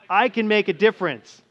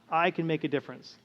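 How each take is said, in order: First: It is said earnestly, with conviction. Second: It is said calmly and plainly.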